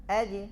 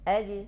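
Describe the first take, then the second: First: The final j is released with a slight bounce. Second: The same.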